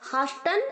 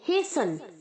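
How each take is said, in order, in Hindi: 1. लंबा 'aa' स्वर, और t की आवाज़ होती है। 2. 'ay' स्वर, और t की आवाज़ नहीं होती। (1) "हम इसे हास्टन और हासन दोनों नहीं कहेंगे" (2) "हम कहेंगे हेसन"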